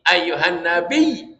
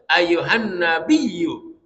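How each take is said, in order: First: The last word ends without the final 'u' vowel. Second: The last word ends with a short 'u' vowel. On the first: The reading stops at this word. "kalau berhenti" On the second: The reading continues into the next words. "itu kalau nyambung"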